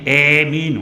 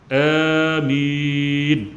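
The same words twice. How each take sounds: First: The long vowel is tilted toward an e sound. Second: The first vowel is drawn out long. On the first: This should not be read. The speaker calls it wrong. "imalah pada huruf alif dan takhfif huruf mim" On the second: This is the most common way. The speaker calls it right. "kalau kita baca dengan panjang, amin, dua harakat"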